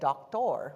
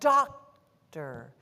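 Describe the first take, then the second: First: The last syllable has a full 'or' sound. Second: The last syllable has a reduced 'er' sound. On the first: The speaker calls it wrong. "I wouldn't have said doctor" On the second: The speaker calls it right. "then it's going to be er"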